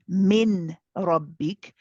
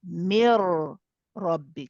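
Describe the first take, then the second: First: The n is pronounced clearly before the r. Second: The n merges fully into a heavy r. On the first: The speaker calls it wrong. "we don't say min rabbik" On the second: The speaker calls it right. "we will say mir rabbik"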